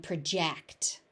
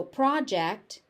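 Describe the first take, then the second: First: "project" with stress on JECT; second syllable of "project" stressed; verb stress. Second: "project" with stress on PROJ; first syllable of "project" stressed; noun stress. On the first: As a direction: say "project" as pruh-JEKT. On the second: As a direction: say "project" as PRAH-jekt. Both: Shown as a demonstration. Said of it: "stress moves depending on how".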